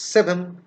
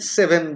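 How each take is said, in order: First: The final n shifts toward the following sound. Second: The final n is pronounced clearly and fully.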